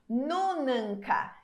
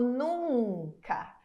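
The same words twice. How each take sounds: First: The middle n is pronounced as a full consonant. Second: The middle n only nasalizes the preceding vowel. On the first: The speaker calls it wrong. "Ninguém fala isso" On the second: The speaker calls it right. "Ele fica como se fosse uma extensão da vogal"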